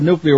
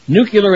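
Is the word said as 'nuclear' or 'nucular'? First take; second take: nuclear; nucular. First: The word is said as 'nu-clee-ar'. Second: The word is said as 'nu-cu-lar'. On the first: The speaker calls it right. "instead of" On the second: The speaker calls it wrong. "butchered word or phrase"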